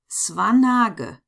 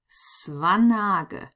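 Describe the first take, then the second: First: The name is read with German letter sounds. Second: The name is read with German letter sounds.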